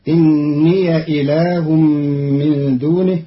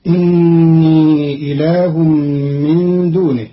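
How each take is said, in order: First: إني with an open ya as inniya; Qalun reading inniya. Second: إني ending on a long ii; Hafs reading innii. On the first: Teacher shows Qalun's open ya, pron. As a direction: end إني on ya. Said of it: "بفتح ياء الإضافة". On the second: Teacher recites the Hafs form first, pron. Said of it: "قرأ قالون كلمة إني". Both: Shown as a demonstration.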